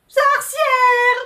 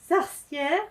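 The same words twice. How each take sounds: First: It is said like a little cat. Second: It is said lovingly, as if in love.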